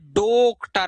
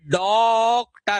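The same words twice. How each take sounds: First: The first vowel is a closed o. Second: The first vowel is an open aw. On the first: The speaker calls it wrong. "न ये डॉक्टर है" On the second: The speaker calls it right. "ये डॉक्टर है।"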